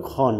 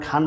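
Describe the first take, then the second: First: খন with a heavy rounded "o" for the "aa"; silent A-vowel. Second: খান with a full long "aa"; open A vowel. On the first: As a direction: say খন as "khon", vowel rounded back. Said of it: "এখানে বলতে হবে খন". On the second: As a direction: sound the aa-vowel clearly in খান. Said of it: "খান বলতে পারবো না". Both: Shown as a demonstration.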